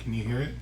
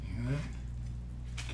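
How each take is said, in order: First: Said in the usual way. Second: Hushed, slow whisper while listening. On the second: Real, not acted. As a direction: breathe it so the sizzle stays audible. Listening to food sizzle.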